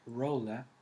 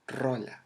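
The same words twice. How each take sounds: First: The R at the start is soft and weak. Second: The R at the start is strong and intense. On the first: The speaker calls it wrong. "I know you probably pronounce it like rola, but no" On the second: The speaker calls it right. "it's with more um, intensity in the letter R"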